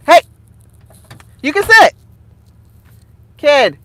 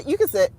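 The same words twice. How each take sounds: First: Real parental shout. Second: Said in the usual way. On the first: Real, not acted. Calling sharply to own child.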